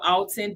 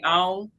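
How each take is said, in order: First: The T sound in the name is pronounced. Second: The T sound in the name is dropped. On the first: "it's spelled Alton" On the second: "we don't say the T, we say on"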